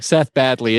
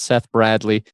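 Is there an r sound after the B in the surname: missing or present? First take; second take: missing; present. First: The surname is said without the r sound. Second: The surname is said with the r sound. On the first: The speaker calls it wrong. "I said badly before we started recording" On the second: The speaker calls it right. "It's Seth Bradley"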